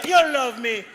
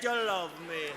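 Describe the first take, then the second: First: Said in the usual way. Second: Much lower and softer; hushed insistence. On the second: Acted. Man tells unwilling woman she loves him, hushed insistence. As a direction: drop to a low, intimate menace. Same claim repeated, now hushed.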